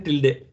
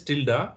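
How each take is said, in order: First: "tilde" said as TIL-day; spelling pronunciation. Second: "tilde" said as TIL-da; spoken pronunciation. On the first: Teacher showing learners how it is written, "tilde" as til-deh. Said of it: "but it is written tilde". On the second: Teacher showing learners the pronunciation, "tilde" as til-da. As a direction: end "tilde" on an open ah, til-dah. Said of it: "pronunciation is tilde". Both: Shown as a demonstration.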